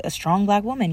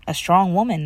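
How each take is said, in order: First: "black" stressed as the key word. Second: "strong" as the prominent word in "A strong woman"; stress on strong. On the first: Daughter refining mom's objective, corrective stress on "black". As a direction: lean on "black" to correct the phrase. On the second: Daughter stating mom's objective before correcting it, stress on "strong". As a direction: lean on "strong", setting up a correction. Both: Real, not acted. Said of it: "not, but a strong black woman".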